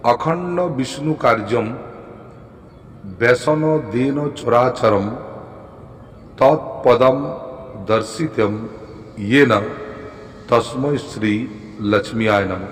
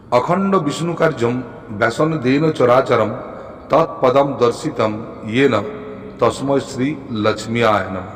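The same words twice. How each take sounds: First: Very slow, spaced-out mantra recital; drawn-out syllables, dictation pace; repeating for learners. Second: Measured Sanskrit chant-like recital; deliberate, reverent-style reciting; mantra recitation. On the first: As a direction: recite slowly with long breaks between phrases. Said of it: "আর একবার বলছি". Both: Shown as a demonstration.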